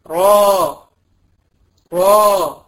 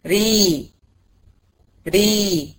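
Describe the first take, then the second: First: را full and heavy, tongue pulled back. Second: ري light with the tongue forward; thin ra. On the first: Teacher contrasting heavy را with thin ري. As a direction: give را a thick emphatic r. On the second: Teacher contrasting thin ري with heavy را. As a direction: model a thin ري. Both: Shown as a demonstration. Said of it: "في المفخمة بقى هتلاقيه بيسحب ورا".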